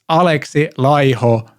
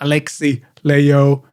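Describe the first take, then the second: First: The name is said with a Finnish pronunciation. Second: The name is said with a non-Finnish pronunciation. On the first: The speaker calls it right. "It's [name]. Learn to pronounce as Finns do" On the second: The speaker calls it wrong. "It's not Alexi Laiho"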